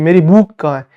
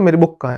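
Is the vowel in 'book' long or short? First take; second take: long; short. First: The vowel in book is long. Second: The vowel in book is short. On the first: The speaker calls it wrong. "ऐसा बुक थोड़ी पढ़ते" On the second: The speaker calls it right. "ऐसे बोलते"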